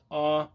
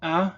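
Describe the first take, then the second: First: A said further back in the mouth. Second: A said short and open in front. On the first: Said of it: "further back in the mouth". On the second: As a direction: say a clearly in front. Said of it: "the pronunciation was". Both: Shown as a demonstration.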